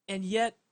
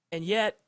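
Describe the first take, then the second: No difference in how they are said.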